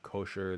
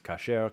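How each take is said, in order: First: The first vowel sounds like 'o' in 'go'. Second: The first vowel sounds like 'a' in 'father'. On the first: The speaker calls it wrong. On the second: It follows modern Hebrew usage. The speaker calls it right. "in modern Hebrew it's kasher"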